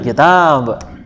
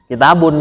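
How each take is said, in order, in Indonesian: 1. Kata ini berhenti pada konsonan akhir saja. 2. Kata ini berakhir dengan akhiran -un penuh. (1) "langsung pakai sukun"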